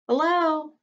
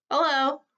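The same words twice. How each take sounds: First: Lightly voiced little elephant girl, high; a young calf greeting brightly; small clear voice. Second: Said in the usual way. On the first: A narrator's reading. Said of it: "says a small, clear voice". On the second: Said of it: "I say".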